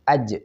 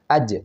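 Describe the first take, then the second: First: The j sound is clear and fully voiced. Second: The j sound is clear and fully voiced.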